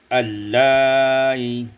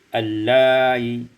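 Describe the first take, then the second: First: The long vowel is held at medium length. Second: The long vowel is held only briefly. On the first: "maka dibaca allai tawassut" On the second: "kemudian kita baca qasar atau qasar allai"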